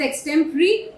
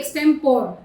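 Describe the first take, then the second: First: The word ends in an 'ee' sound. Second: The word ends in an 'or' sound. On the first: The speaker calls it right. "Make sure you pronounce it very correctly, that is" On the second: The speaker calls it wrong. "ना कि"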